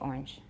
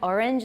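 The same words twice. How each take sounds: First: The word is said with one syllable. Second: The word is said with two syllables. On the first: This is the local regional form. "Minnesota, we say orange" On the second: This is the form taught in school. "you learn orange in school"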